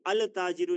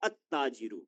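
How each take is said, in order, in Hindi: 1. T से पहले L की आवाज़ सुनाई देती है। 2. L की आवाज़ सुनाई नहीं देती; T दोहराया जाता है। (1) "अल ताजिरु नहीं" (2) "बल्कि अत्ताजिरु"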